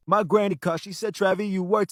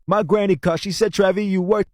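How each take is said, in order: First: The same vocal once cleaned, quieter; the leveled take after processing; smooth, tamed vocal recording; clean processed vocal. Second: Roomy, harsh recording before the cleanup; the vocal before the processing; muddy untreated vocal take; raw unprocessed vocal. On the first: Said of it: "to this". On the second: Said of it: "we got it from this". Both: Shown as a demonstration.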